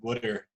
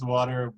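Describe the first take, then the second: First: It is said in a Philadelphia accent. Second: It is said in a standard accent.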